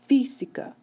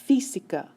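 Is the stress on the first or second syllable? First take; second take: first; first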